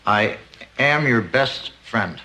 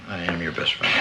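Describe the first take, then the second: First: It is said loudly. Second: It is said quietly.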